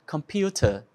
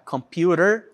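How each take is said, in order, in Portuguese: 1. É pronunciada com sotaque britânico. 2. É pronunciada com sotaque americano. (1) "no British English" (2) "no American English"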